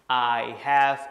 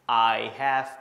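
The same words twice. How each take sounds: Both takes have the same delivery.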